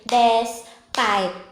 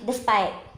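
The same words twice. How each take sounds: First: The word is split into two parts. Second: The word is said as one unit. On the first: The speaker calls it wrong. "Huwag niyo paghihiwalayin yan. Don't say despite" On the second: The speaker calls it right. "It should be despite"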